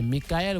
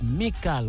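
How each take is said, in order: First: The name ends with a separate 'el' syllable. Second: The name ends in a single 'kal' syllable. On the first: The speaker calls it wrong. "quand c'est Michael" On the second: The speaker calls it right. "vous dites ... Mikal"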